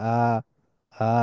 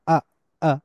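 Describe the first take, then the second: First: Lower, softly started long আ; smooth, open English আ. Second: আ cut short with a hard onset; clipped glottal-stop আ; abrupt Arabic hamza. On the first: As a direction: ease into আ with no glottal catch. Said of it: "এরকম হয়". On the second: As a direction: start আ suddenly from a blocked throat. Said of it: "এরকম শুরু হয়". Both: Shown as a demonstration.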